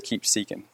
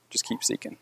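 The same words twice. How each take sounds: First: Said in the usual way. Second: Soft, breathy whisper of encouragement; whispered repeat of the plea. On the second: Real, not acted. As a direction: drop to a whisper as you repeat it. Urging the man to keep seeking.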